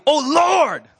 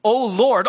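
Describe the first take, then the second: First: Mock shout. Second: Said in the usual way. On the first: Shown as a demonstration. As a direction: Lord called out loud and high. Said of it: "like it's shouting". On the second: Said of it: "all caps".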